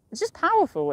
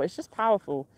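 First: Emphatic. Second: Said in the usual way. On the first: Real, not acted.

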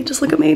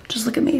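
First: Whispered, higher plea; whispering. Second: Said in the usual way. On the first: Real, not acted. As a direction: breathe it out, pleading. Whispered repeat.

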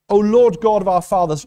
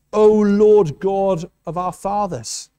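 First: Said in the usual way. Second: Put-on slow, reverent reading of an old prayer; solemn slow prayer. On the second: Preacher reads Jehoshaphat's prayer to the congregation, slow and reverent. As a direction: let each word of the prayer land slowly and solemnly. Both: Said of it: "He says".

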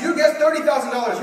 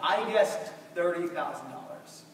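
First: Loud, high, fast host read; host announcing the guess, loud and quick; announcer. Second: Said in the usual way. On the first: Retold or imitated. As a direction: rattle it off like a game show host. Host reading Alex's guess.

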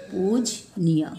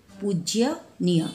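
First: पूजनीय said slowly and clearly as poo-ja-nee-ya, with no "य" after "ज"; correct pronunciation. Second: पूज्यनीय said slowly with the "ज्य" cluster, poo-jya-nee-ya; wrong spelling read out. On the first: Teacher modelling the correct word for the children, slow and careful. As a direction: stretch out पूजनीय, pud-ja-niya, syllable by syllable. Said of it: "पूजनीय होगा". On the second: Teacher reading the misspelled word to the children, slow and deliberate. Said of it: "ऐसे नहीं होगा". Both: Shown as a demonstration.

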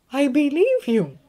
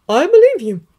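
First: Put-on high, slow, gentle older woman; McGonagall voice. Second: Put-on high, firm older woman; McGonagall voice. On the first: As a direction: repeat it slowly and kindly. Said again, slower. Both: A narrator's reading.

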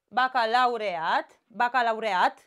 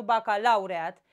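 First: "Bacalaureat" stressed on the final AT; correct final stress. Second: "bacalaureat" stressed on LAU; wrong early stress. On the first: Teacher models the correct accent, stress on the final syllable. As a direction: land firmly on the last syllable of "Bacalaureat". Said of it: "care sunt corect, uh, accentuate". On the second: Teacher shows the form to avoid, stress on LAU. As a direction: punch LAU in "bacalaureat", dropping after it. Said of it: "Nu bacalaureat". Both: Shown as a demonstration.

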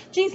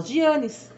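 First: Said in the usual way. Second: Slow "Gianes", zhee-AH-nees; mispronounced jeans. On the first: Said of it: "não consegue falar jeans". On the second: Retold or imitated. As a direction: imitate her slip "Gianes" in three syllables. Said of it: "ela fala Gianes".

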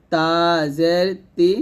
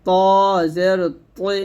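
First: তা জের তি with light dental t and clear i; thin light ti. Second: ত জের তৈ with heavy t gliding from o to i; thick heavy toi. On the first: Teacher drilling the thin letter, light ti. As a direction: keep তি thin at the tooth tips. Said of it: "পাতলা করে". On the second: Teacher drilling the thick letter, heavy t. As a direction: make ত and তৈ full and dark. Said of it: "মোটা করে". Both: Shown as a demonstration.

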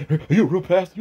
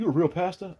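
First: Mild mock of a pushy interviewer; mocking his question. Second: A hint of mock disbelief; quieter mocking echo. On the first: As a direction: parrot his dumb question back with a sneer. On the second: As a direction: repeat the mock question, softer and under the breath. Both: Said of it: "starts asking stupid questions".

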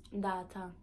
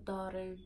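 First: "Data" with island t and open final a; Virgin Islands accent. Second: Said in the usual way. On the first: Shown as a demonstration. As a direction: say "Data" the Saint Thomas way. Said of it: "my accent". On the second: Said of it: "into the stateside version of speaking".

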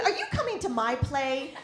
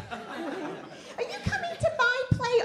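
First: Said in the usual way. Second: Put-on slow, higher whining kid voice; whiny child. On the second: Comic voicing her child begging at her. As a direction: beg like a little kid.

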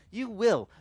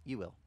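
First: You will said higher and louder, firm; firm promise. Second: Soft, low you will; gentle reassurance. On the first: The Lord repeating his promise, louder and firm. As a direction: land you will with emphatic weight. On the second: The Lord answering the believer, soft and low. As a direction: quietly promise you will, softer. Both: Retold or imitated. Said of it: "And the Lord goes".

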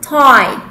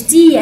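First: "tie" with an eye sound; correct diphthong. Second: "تي" said as "tee"; long ee in "تي" instead of eye; wrong vowel. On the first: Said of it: "هنا اسمها tie". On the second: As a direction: mistaken "tee" for tie. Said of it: "مش تي أكيد يعني". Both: Shown as a demonstration.

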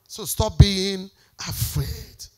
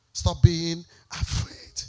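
First: Slow plea. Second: Slower softer plea. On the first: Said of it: "repeated closing plea". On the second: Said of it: "repeated softer plea". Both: Real, not acted.

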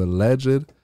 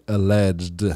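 First: "alleged" said as two syllables, al-LEDGE-id; "alleged" with an extra syllable at the end; two-syllable pronunciation. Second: "alleged" said as al-LEDGD; "alleged" without a separate final -id; one-syllable ending. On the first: Real, not acted. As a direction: sound the final -ed of "alleged" separately. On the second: Shown as a demonstration. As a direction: run the -ed of "alleged" into the syllable before. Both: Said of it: "say that with one syllable".

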